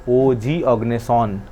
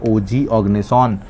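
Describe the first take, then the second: Both takes have the same delivery.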